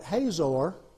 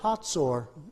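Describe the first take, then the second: First: The middle consonant is a plain z sound. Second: The middle consonant is a ts sound. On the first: This is the usual English Bible pronunciation. The speaker calls it wrong. "I used to call that Hazor" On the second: This is the Hebrew pronunciation. The speaker calls it right. "it's actually a T S sound in Hebrew, and so it's Hatzor"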